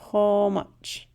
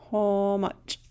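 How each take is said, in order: First: How much, a long o in how; how much, louder; model word. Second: Second how much, settled; repeated model word. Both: Shown as a demonstration. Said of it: "A wood rat".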